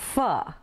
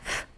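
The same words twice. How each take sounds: First: The consonant sound is said uncleanly. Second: The consonant sound is said cleanly. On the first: The speaker calls it wrong. "It's not F" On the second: The speaker calls it right. "the sound of that F is F"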